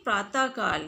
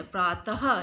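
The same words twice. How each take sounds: First: प्रातः काल as "praataa kaal", no breathed h; wrong pronunciation. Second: प्रातः ending in a breathed "ha"; correct pronunciation. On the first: Teacher showing the incorrect word, प्रातः काल without visarga. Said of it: "ये अशुद्ध है". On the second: Teacher giving the correct form, प्रातः with sounded visarga. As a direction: say प्रातः as "praataha". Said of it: "शुद्ध है". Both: Shown as a demonstration.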